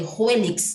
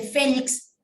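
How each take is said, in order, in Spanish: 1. El nombre empieza con un sonido parecido a h más w. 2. El nombre empieza con un sonido f. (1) "¿cómo pronuncian la palabra Félix" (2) "En vez de Félix"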